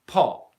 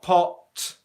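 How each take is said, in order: First: The final T ends with little or no air. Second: The final T ends with a strong burst of air. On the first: The speaker calls it right. "we do not release that much airflow at the end of a word" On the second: The speaker calls it wrong. "we do not want to fully explode our T"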